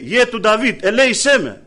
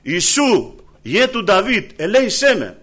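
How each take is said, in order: First: Higher, louder plea for mercy; a blind beggar crying out again, louder and higher. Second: Crying out. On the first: Preacher voicing blind Bartimaeus calling to Jesus again, louder plea. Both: Retold or imitated. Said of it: "Και φωνάζει".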